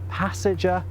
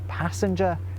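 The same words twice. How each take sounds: First: It has no n sound before the g. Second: It has an n sound before the g. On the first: "instead of passenger" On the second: "responsible for the N in passenger"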